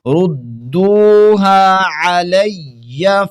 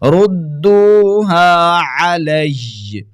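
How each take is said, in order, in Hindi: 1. अंतिम शब्द में एक अतिरिक्त अ स्वर जोड़ा गया है। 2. अंतिम शब्द दोहरे य व्यंजन पर खत्म होता है। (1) "मिलाकर पढ़ना चाहते हैं ... अलैया पढ़ेंगे" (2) "जब वक़्फ़ करेंगे"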